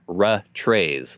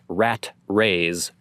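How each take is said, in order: First: Only the second t is pronounced, ra trays. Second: Only the first t is pronounced, rat rays. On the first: "or ra trays, like most people pronounce it" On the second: "not rat rays"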